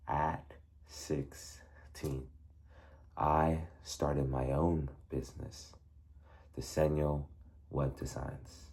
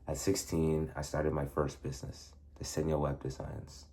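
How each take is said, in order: First: It is said slowly and exaggerated. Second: It is said fast and rushed.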